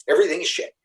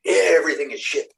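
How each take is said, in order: First: Higher, louder fed-up cry; imitating Cindy snapping in frustration; mock angry outburst. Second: Mock angry repeat. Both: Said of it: "one time she got so mad".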